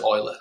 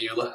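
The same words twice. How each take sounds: First: The name is not read the way it looks. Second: The name is read the way it looks. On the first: This is the speaker's own way of saying it. "I pronounce it Euler" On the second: This is how most people say it. "ninety-nine percent of people call it Euler"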